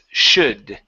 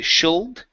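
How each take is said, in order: First: The L sound is silent in the word. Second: The L sound is pronounced in the word. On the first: The speaker calls it right. "the L is silent, so it's should" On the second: The speaker calls it wrong. "we don't say should"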